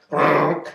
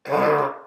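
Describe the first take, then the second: First: A short growl standing in for ribbit; mock frog growl. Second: Mock frog growl; growled ribbit. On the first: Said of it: "is how I say ribbit". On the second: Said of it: "which is how I say ribbit". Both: Shown as a demonstration.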